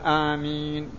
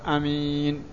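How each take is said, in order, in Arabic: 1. الحركة الأولى تُمَدّ مدًّا طويلًا. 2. الحركة الأولى تبقى قصيرة. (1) "تمد الهمزة" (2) "أو تقتصرها تقول آمين"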